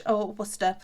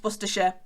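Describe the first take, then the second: First: Worcester as WUSS-tuh, two syllables; Worcester said short and soft; short form Worcester. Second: Worcestershire as WUSS-tuh-shuh, like the sauce; Worcestershire said carefully. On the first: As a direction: clip it to Worcester. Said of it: "if you wanna say it shortly". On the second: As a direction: spell out the proper local Worcestershire. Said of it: "like the sauce". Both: Shown as a demonstration.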